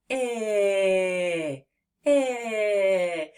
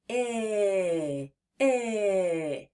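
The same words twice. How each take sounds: First: I held long and drawn out; long stretched I. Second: Buzzing I held on the voice; voiced short I. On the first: Teacher shows the short I can be stretched long. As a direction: stretch the I as long as the air lasts. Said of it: "let's try to say it long". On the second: Teacher has kids feel the throat buzz on I. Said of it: "Place your hands there and say". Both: Shown as a demonstration.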